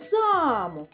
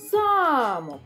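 First: The stress is on the first syllable. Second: The stress is on the first syllable.

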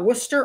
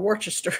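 First: The name is clipped, with syllables dropped. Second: The name is said with every spelled syllable.

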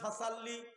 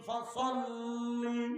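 First: The s-sound is light and plain. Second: The s-sound is heavy and emphatic. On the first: The speaker calls it wrong. "এখন আমি পড়ে গেলাম ফাসাল্লি, তাহলে সিন আসলো" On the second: The speaker calls it right. "এখানে আছে কি সদ, তো উচ্চারণ হবে কি ফাসাল্লি"

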